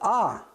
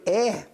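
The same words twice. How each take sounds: First: The letter name has a Polish pronunciation. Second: The letter name has a Danish pronunciation. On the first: "men på polsk der siger man A" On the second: "på dansk der siger man jo A"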